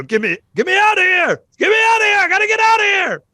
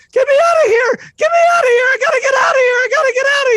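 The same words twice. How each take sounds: First: High, loud Southern panic, words drawled; southern drawl shout. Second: High, loud, frantic yelling to be let out; panicked shout. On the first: [name] redoes his panicked yell in a Southern drawl. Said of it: "southern drawl with that". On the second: [name] bangs on the door and yells to the group in panic. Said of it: "you didn't include the, uh, southern drawl". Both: Acted.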